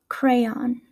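Said with a West Coast American accent. "here are a few words with the West Coast pronunciation"

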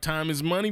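It is said in a put-on character voice. "in the voice of Money Mike"

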